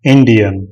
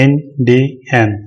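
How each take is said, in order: First: Said in the usual way. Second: इंडियन slowly as in, di, an with gaps; split in three. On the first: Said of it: "तो हो गया". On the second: Shown as a demonstration. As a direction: break इंडियन into three separate beats. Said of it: "तीन हिस्सों में बांटेंगे".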